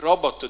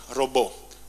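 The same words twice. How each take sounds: First: The word is said in a non-French style. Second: The word is said in a French style. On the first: The speaker calls it right. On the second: The speaker calls it wrong.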